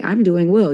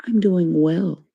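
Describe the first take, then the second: First: Crisp, correct "I'm doing well."; proper formal answer. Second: Prim, correct "I'm doing well."; formal proper answer. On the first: Explaining code switching, the formal reply, said prim and proper. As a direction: say "well" like a polite office greeting. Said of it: "And it wouldn't be like". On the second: Showing the formal thing to say, said prim and proper. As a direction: stress "well" like a polite office greeting. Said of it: "the formal thing to say is". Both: Shown as a demonstration.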